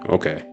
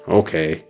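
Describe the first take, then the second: First: It is said curtly, closing the discussion. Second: It is said reluctantly, grudgingly agreeing.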